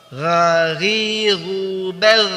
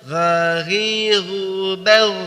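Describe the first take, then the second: Both takes have the same delivery.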